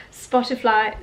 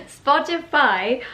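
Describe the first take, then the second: First: "Spotify" slipped into "Spotifly"; accidental "fly" ending on "Spotify"; slip of the tongue. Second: "Spotify" said clearly with "fy", no L; louder, amused correction to "Spotify", ending "fy"; corrected pronunciation. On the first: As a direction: say "Spotify" with a stray L, as "spot-i-fly". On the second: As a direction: put it right as "spot-i-fy". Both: Real, not acted. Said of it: "Why do I keep saying Spotify?".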